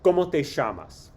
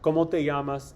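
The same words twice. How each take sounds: First: Double L sounds like sh, Argentine style. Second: Double L sounds like y, common style.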